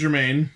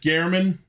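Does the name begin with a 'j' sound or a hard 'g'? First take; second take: j; hard g. First: The name begins with a soft 'j' sound. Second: The name begins with a hard 'g' sound. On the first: The speaker calls it wrong. "I pronounced that wrong" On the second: The speaker calls it right. "it's Gehrman"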